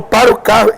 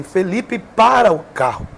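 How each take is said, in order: First: Loud, higher yell of "Para o carro"; shouted command. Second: A slow, firm call of the name, only mildly raised; lightly voiced command to stop, drawn out slowly; retold divine shout. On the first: Retold or imitated. The Holy Spirit shouting at Felipe to stop the car, loud urgent yell. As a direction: bark it out like an urgent order. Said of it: "quando ele falou". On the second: The Holy Spirit ordering Felipe to stop the car, slow mild mock shout. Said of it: "gritou dentro do carro".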